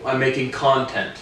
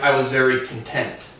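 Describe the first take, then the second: First: "content" with the stress up front, CON-tent; stress on first syllable. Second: "content" stressed at the end, con-TENT; stress on second syllable. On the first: YouTuber showing what he makes, "content" stressed CON-tent. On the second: Explaining one spelling as two words, "content" stressed con-TENT. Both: Shown as a demonstration. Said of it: "inflect a different part of the syllability".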